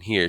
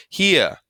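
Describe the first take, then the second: First: Said in the usual way. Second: "here" high and loud, Southern drawn vowel; Southern-style "here". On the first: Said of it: "Instead of saying "here". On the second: Shown as a demonstration. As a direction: say "here" with a worried Southern accent. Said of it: "talking Southern style".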